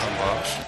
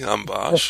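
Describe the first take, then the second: First: It is said flatly, without excitement. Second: It is said with excited, lively energy.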